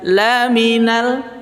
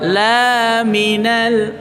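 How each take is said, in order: First: The first vowel is short. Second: The first vowel is held long. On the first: He is truly one of the messengers. The speaker calls it right. "Tadinya dibaca laminal" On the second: He is not one of the messengers. The speaker calls it wrong. "Kita panjangin aja dua harokat"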